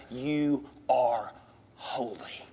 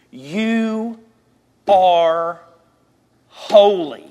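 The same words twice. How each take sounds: First: "you are holy" low and soft, HOLY near a whisper; hushed declaration. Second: YOU, ARE, HOLY each set apart, HOLY loud; emphatic declaration. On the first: Preacher tells believers how God sees them, hushed. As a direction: let "holy" drop to a low hush after a pause. Same words softened as God's view. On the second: Preacher tells believers who they are, emphatic and deliberate. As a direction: land "you are holy" word by word, pausing between. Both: Real, not acted.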